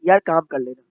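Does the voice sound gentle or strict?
gentle. The tone is soft, calm and gentle. "But difference है"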